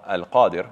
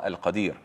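First: "Al-Qadir" with long AA, short final i; active-participle form. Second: "Al-Qadir" with short a, long final EE; intensive-pattern form. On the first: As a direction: stretch the first vowel of "Qadir", AL-QAA-dir. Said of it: "this is the ism fa'il". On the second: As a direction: stretch the last vowel of "Qadir", al-qa-DEER. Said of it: "Al-Qadir is on the fa'il pattern". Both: Shown as a demonstration.

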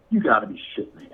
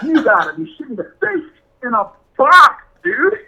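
First: Quick, muttered in disbelief; fast low grumble of disbelief. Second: Rising to a loud, high outburst; exasperated outburst. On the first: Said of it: "and he goes". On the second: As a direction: build from disbelief into a yell. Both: Retold or imitated.

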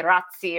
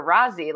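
First: Rozzi said ROT-see, with a ts; Italian pronunciation. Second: Rozzi said RAH-zee, with a plain z; softened pronunciation. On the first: Listing both ways people say the surname, Italian pronunciation. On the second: Listing both ways people say the surname, softened pronunciation. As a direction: drop the t in Rozzi, just a z. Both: Shown as a demonstration. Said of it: "if people say Rozzi or Rozzi".

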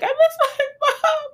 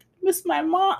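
First: Higher, slow, wobbling crying voice, half laughing; hammed-up sob-talk through "I miss my mom"; mock crying talk. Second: Said in the usual way. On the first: Shown as a demonstration. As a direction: blubber the words the way you talk while crying. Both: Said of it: "the cry while you're talking".

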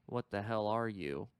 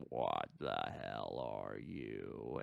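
First: Said in the usual way. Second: Very low, slowed alien echo; giant alien booming voice. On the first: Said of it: "he asks the mortally wounded alien". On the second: Retold or imitated. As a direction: drag it out deep and monstrous. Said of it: "Predator ends up replying".

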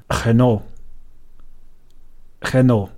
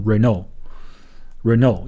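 First: Renault slowly in French, a throaty R, heh-no; French pronunciation. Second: Renault slowly in English, reh-no, T silent; English pronunciation. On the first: (法语读法，小舌音 Renault) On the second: (英语读法 Renault) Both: Shown as a demonstration. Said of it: "应该读成".

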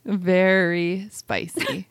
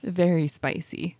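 First: "Very spicy" stretched out slowly, VERY leaned on; slow emphatic repeat. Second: Said in the usual way. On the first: Shown as a demonstration. To the host about the birth pain, "Very spicy" drawn out slowly.

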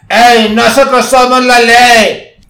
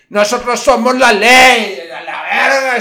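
First: Higher, much louder, slow shouted boast. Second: Higher, louder, slow boast with a laugh. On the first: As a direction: bellow it like a gang motto. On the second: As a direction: lord it over her laughing. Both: Retold or imitated.

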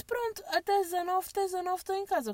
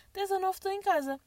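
First: Fast, higher, breezy reply; quick brush-off. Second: Said in the usual way. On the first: Retold or imitated. Texting the courier, a fast brush-off. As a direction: rattle it off to get rid of him. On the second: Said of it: "O que é mentira".

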